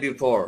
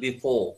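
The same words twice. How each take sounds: First: It is said with an American accent. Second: It is said with a British accent. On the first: "আমেরিকানরা বলবে" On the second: "ব্রিটিশরা বলবে"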